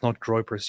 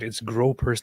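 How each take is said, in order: First: The first vowel sounds like "oy". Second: The first vowel sounds like "oh". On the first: The speaker calls it wrong. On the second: The speaker calls it right. "get it right. It's gropers"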